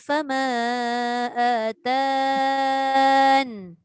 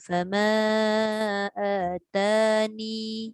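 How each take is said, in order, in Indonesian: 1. Kata itu berakhir tiba-tiba pada n sukun. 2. Kata itu berakhir dengan vokal akhir yang dipanjangkan. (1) "sukun pada nun ... Mati terus nun" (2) "mad asli pada ya ... dua harakat mad"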